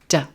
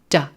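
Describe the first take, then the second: First: The vowel is reduced to a short schwa. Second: The vowel is reduced to a short schwa.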